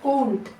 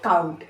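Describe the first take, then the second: First: The vowel sounds like a plain 'oh'. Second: The vowel sounds like 'ow' as in cow. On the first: The speaker calls it wrong. "इस तरह से आप इसे पढ़ते" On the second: The speaker calls it right. "अभी आप अच्छे से बराबर पढ़ोगे"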